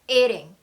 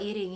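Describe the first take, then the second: First: The first syllable is punched out with strong force. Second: The word is said limply, with weak force. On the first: The speaker calls it right. "이 소리가 귀에 확 꽂히셔야 돼요" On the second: The speaker calls it wrong. "이렇게 흐물흐물"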